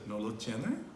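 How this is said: It is said with question intonation. It asks whether the person does not have it. "she turned that into a question"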